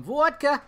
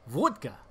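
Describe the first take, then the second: First: Said in the usual way. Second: VODKA with a Russian round "o"; thick Russian-accented VODKA. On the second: Pretend. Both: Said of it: "that's my Russian accent".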